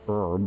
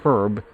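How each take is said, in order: First: The word is said the American way. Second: The word is said in a non-American way.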